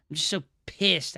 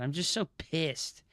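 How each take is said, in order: First: Louder, with a hard hit on pissed; angry outburst. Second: Said in the usual way. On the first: Real, not acted. Streamer blowing up after the same line said calmly. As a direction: let the anger burst out on the repeat.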